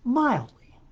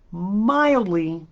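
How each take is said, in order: First: Mildly said high with a falling finish; a wry, emphatic Mildly; one pointed word, high then dropping; stress on mildly. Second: Mildly pushed louder and higher; a pointed, emphatic mildly; stress on mildly. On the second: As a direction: lean hard on mildly. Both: Shown as a demonstration. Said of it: "I will stress the word mildly".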